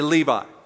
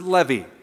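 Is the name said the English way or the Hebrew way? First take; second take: English; Hebrew. First: The name is given its English pronunciation. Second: The name is given its Hebrew pronunciation. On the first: This is how English speakers say it. "We say Levi" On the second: "That's how they pronounce it"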